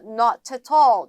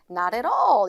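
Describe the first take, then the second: First: Every T sound is fully and crisply pronounced. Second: The T sounds are soft flaps linking smoothly. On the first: "영국식 발음으로 들어가게 되면 not at all 이렇게 T 사운드 다 살리긴" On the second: "리을 소리가 나서 not at all 이렇게요"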